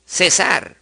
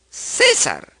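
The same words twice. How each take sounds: First: Cesar stressed on the final SAR; stress on last syllable. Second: César stressed on CÉ; stress on first syllable. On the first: Teacher contrasting the aguda form, ce-SAR. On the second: Teacher contrasting the grave form, CÉ-sar. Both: Shown as a demonstration.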